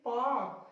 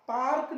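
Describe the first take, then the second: First: पार्क as "paak", no R, falling; long "aa" straight into K in पार्क; correct silent R. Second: पार्क with the R sounded, "paark", pitched up; mispronunciation with R. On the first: Teacher correcting the reading of park, पार्क said "paak" without R. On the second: Teacher showing what not to say, पार्क with a sounded R. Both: Shown as a demonstration. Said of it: "पार्क नहीं".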